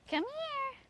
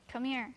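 First: Very high falsetto animal call; high-pitched coaxing. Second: Said in the usual way. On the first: Real, not acted. Owner coaxing Beetle inside, high-pitched call. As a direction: coax the pet in a very high voice.

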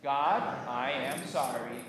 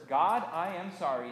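First: Slow, measured apology in prayer; congregational recitation. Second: Said in the usual way. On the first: Shown as a demonstration. Pastor leading congregation's apology to God, slow recitation. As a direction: space the words so all can join. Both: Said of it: "and say it with me".

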